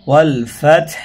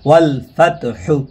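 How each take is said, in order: First: The word ends on a bare consonant. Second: The word ends with a short 'u' vowel. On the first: The reader is stopping at this point. "অক্ফ করলাম তখন আমরা পড়লাম ফাত" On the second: The word is being spelled out letter by letter. "বানানের সময় আমরা পড়লাম ফাতহু"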